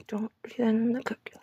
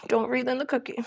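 First: A hushed self-reminder; whispered warning. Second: Said in the usual way. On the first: Shown as a demonstration. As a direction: whisper the warning, half to yourself. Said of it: "warning repeated, whispered". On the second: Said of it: "warning repeated".

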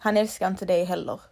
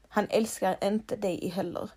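First: Said in the usual way. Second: "Han älskar inte dig heller" said much softer; soft repeat. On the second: Shown as a demonstration. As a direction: let "inte" sink in quietly. (tyst och allvarligt "inte") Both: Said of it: "ska vara helt ärlig mot dig?".

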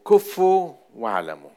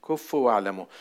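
First: Preacher booming the verse's command; emphatic loud proclamation. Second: Said in the usual way. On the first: Shown as a demonstration. Preacher to congregation, loud emphatic command.

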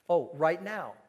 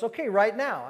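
First: Said in the usual way. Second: "right now" higher and louder, firmly; more conviction. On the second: Retold or imitated. Girl repeating her answer to the pastor, more firmly. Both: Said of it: "raise the conviction a little bit".

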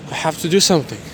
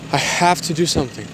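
Both takes have the same delivery.

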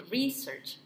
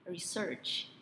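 First: Research stressed at the front, slowly. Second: Research with stress at the end; stress on SEARCH. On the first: Teaching the co-host: research stressed up front, slowly. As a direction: hit the re of research. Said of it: "Penekanannya di depan". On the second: Showing the alternative: Research stressed at the end. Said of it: "penekanannya di belakang". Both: Shown as a demonstration.

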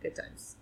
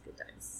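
First: Whispered good times. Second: Fainter whispered good times. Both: Real, not acted.

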